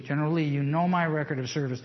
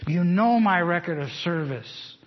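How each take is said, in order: First: Said in the usual way. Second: Slow, weighty stress on know; emphatic quote. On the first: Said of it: "so he's reminding General Lee". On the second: Retold or imitated. Preacher quoting Jeb Stuart to General Lee, slow and weighty. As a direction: lean on "know" slowly and firmly. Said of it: "you're on the front line of Gettysburg".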